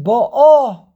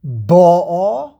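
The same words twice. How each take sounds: First: "ba'a" rising onto a loud final "a"; teacher's demo, "ba'a" stressed at the end; stress on last syllable. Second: "ba'a" with a loud, stretched first "ba"; teacher's demo, "ba'a" stressed at the front; stress on first syllable. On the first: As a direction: punch the second syllable of "ba'a". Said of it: "or do you pronounce it". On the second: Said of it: "emphasis on the second to last syllable". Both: Shown as a demonstration.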